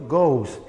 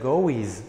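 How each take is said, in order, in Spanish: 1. La palabra se dice como una sola sílaba. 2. La palabra termina con una sílaba extra 'iz'. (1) "Pronuncio goes" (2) "no voy a pronunciar goes"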